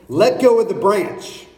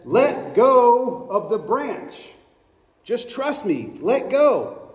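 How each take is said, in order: First: Said in the usual way. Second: Slow and insistent. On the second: Acted. God repeats, slower.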